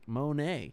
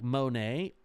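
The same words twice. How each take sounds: First: It starts with "mun" and ends with "ah". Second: It starts with "mo" and ends with "nay". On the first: "like Mon like Mun M O N hyphen A like Canada? Like A, like Monet" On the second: "do you pronounce it like M O hyphen N A Y like Monet"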